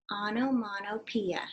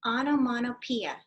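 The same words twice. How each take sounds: First: Onomatopoeia said slowly, syllable by syllable; slow model word. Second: Said in the usual way. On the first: Shown as a demonstration. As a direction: sound out Onomatopoeia slowly for kids to copy. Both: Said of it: "Can you say that?".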